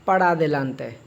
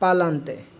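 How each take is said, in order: First: Every syllable of the phrase is pronounced. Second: The phrase is squeezed into one short word.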